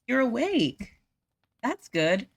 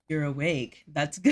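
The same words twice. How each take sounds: First: It is said in her own normal voice. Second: It is said in a put-on deep male voice.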